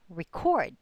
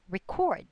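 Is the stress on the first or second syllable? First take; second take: second; second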